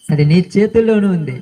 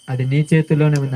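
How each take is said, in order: First: అది నీ చేతుల్లోనే ఉంది repeated firmer, with weight on చేతుల్లోనే; firm, driving-home repetition; emphatic repeat. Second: Said in the usual way. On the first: Shown as a demonstration. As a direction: lean into చేతుల్లోనే on the second time. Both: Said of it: "repeated for emphasis".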